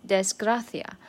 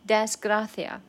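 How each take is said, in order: Both takes have the same delivery.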